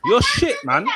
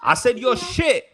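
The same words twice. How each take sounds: First: High squeaky laughing insult; laughing taunt. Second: "you're shit" said slow and deliberate; slow emphatic repeat. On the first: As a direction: laugh it out mockingly. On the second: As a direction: spell out "shit" slowly, firmly. S1 repeats insult slowly. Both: Acted.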